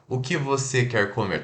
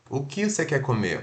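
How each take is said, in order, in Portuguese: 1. 'Você' é pronunciado por completo. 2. 'Você' é reduzido e fraco. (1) "a gente não fala" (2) "a gente só come e fala você"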